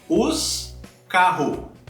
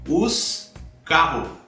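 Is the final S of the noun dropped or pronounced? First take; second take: dropped; dropped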